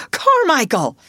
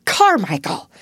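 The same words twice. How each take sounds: First: Much higher, loud repeated cry; "Carmichael!" flung out high and loud; the second, more frantic shout of the name; desperate shout. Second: A sharp call, louder than the talk; "Carmichael!" cried out loud; loud cry. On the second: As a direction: call the name out urgently. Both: A narrator's reading. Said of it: "cried out loudly".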